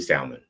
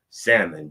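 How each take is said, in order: First: Salmon with a sounded L; L pronounced. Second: Salmon said as SAM-mon; silent L. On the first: Slipping back after she opened it, salmon with L. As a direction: say salmon as SAL-mon. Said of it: "So they just went right back". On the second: Giving Mona the jerky, salmon with silent L. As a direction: say salmon without the L. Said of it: "I said salmon". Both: Shown as a demonstration.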